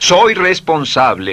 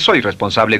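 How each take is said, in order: First: It is said with strong, convinced feeling. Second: It is said flatly, without feeling. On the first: The words are truly felt. The speaker calls it right. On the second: The words are not truly felt. The speaker calls it wrong. "no dice"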